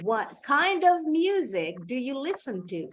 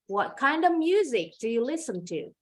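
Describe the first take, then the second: First: The f in 'of' is pronounced and linked. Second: Said fast, with the f in 'of' dropped. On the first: "kita sambung nih bunyi of dengan bunyi d" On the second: "Kalau cepat, ... Of-nya bunyinya jadi e, huruf F-nya hilang"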